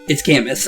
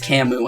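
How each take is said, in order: First: The name is said the English way, ending in 'us'. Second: The name is said the non-English way, without 'us'. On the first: "when you go for English pronunciation" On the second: "apparently it's Camus"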